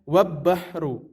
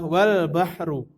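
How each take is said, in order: First: The L sound merges into a doubled B. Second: The L sound is clearly pronounced before B. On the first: The speaker calls it wrong. "bukan wab bahru" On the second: The speaker calls it right. "Maka cara membacanya adalah wal bahru"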